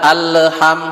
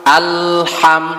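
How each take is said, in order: First: The L is released with a small bounce. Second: The L is held still with no bounce. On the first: The speaker calls it wrong. "jangan ada alham, jangan ada pantulan" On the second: The speaker calls it right. "Harus benar-benar disukunkan lamnya"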